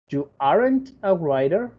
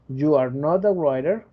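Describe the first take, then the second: First: Are and not are joined into aren't. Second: Every word is said in full, uncontracted. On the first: "contraer el verbo to be con el not" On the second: "Cuando te lo dicen completo es que están poniendo énfasis"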